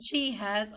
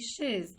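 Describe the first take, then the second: First: It is said as two full words. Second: It is said as one contracted syllable. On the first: "instead of saying she has" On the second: "contracted to I've or she's"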